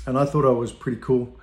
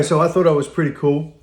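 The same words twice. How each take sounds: First: Said in the usual way. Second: Proudly repeating "so I thought I was pretty cool"; emphatic restatement. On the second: Retold or imitated. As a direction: punch "pretty cool" with self-mocking pride. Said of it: "Anyway, so I thought I was pretty cool".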